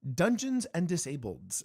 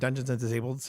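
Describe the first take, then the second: First: The last word ends with an added s. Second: The last word ends without an added s. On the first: "I over pronunciated that" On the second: "I I tongue tie myself"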